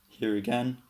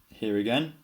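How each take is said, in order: The two takes are said the same way.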